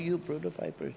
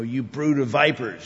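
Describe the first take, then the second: First: It is said in a mild, gentle tone. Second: It is said in a harsh, rebuking tone. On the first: The speaker is not really condemning anyone. The speaker calls it wrong. "I don't think he's, oh" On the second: The speaker is sternly condemning the listeners. The speaker calls it right. "When Jesus is rebuking the hypocrites"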